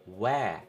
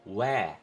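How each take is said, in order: No difference in how they are said.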